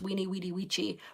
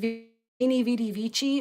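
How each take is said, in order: First: Each word begins with a W sound. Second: Each word begins with a V sound. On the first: The speaker calls it right. "actually pronounced Weenie Weedy Weechi" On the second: The speaker calls it wrong. "I always mispronounce it"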